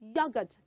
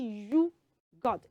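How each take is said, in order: First: The first syllable sounds like "yo". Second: The first syllable sounds like "you". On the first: The speaker calls it right. "it's not you, it's yo" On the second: The speaker calls it wrong. "don't say you got"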